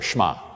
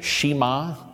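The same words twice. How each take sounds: First: The sh runs almost straight into the m. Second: A full vowel is heard between sh and m. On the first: The speaker calls it right. "Pronounce it like the E's not there" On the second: The speaker calls it wrong. "Please do not say Shema. That's like nails on a chalkboard"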